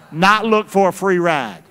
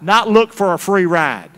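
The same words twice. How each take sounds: The two takes are said the same way.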